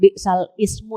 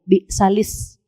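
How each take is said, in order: First: The glottal stop before ismu is pronounced separately. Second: The words are linked with no glottal stop. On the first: The speaker calls it wrong. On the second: The speaker calls it right.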